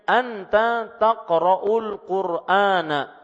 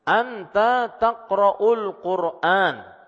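First: The last word ends with a short vowel. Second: The last word ends on the consonant n. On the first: The speaker calls it wrong. "belakangnya enggak usah dibaca" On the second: The speaker calls it right. "pembacaannya tidak usah ada fathahnya"

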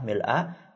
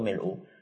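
First: The word ends with an 'a' vowel. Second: The word ends with a 'u' vowel. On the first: "bisa dengan fathah mil'a" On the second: "bisa dengan dhammah yaitu mil'u"

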